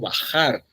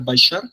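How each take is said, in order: First: The middle consonant is a harsh 'h' sound. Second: The middle consonant is a 'sh' sound. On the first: This is the modern pronunciation. "pasaron a pronunciarse como" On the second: This is the medieval pronunciation. "la palabra bajar se decía baixar"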